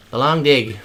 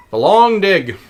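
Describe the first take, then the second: First: Said in the usual way. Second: Dramatic title. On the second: Shown as a demonstration.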